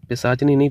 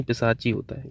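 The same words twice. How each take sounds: First: पिशाचनी with an extra nee ending, pisaach-nee; wrong form. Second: पिशाची ending straight in chee, softer; correct form. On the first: Teacher rejecting a wrong feminine form, पिशाचनी with the nee ending. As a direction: add nee to the end of पिशाचनी. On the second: Teacher giving the correct feminine form, soft पिशाची ending in chee. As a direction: say पिशाची as pi-saa-chee, no nee. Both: Shown as a demonstration.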